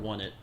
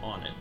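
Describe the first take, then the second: First: The name begins like the word one. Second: The name begins like the word on. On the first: "why you might think it would be called One It" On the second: "I've always pronounced it on it"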